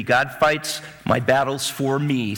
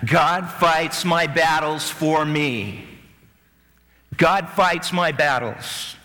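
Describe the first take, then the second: First: Slow, deliberate phrase for the crowd to repeat; slow call and response. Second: Very slow, every word spaced; slow group repetition. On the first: Preacher leading the church in a slow refrain. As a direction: lead the congregation slowly. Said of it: "say it with me". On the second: Congregation repeating the line slowly with the preacher. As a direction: drag it out as the crowd joins in. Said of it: "Say that". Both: Shown as a demonstration.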